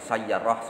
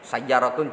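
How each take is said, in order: First: The word's ending is cut short. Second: The word is said with its full ending.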